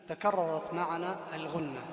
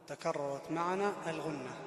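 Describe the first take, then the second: No difference in how they are said.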